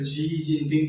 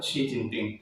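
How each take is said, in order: First: The first word starts with a 'j' sound. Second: The first word starts with a 'ch' sound. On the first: The speaker calls it wrong. "আমি প্ৰায় ভুল কৰা হয় এইটো জি Jinping কয় কিছুমানে" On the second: The speaker calls it right. "আচলতে এইটো চি জিনপিং"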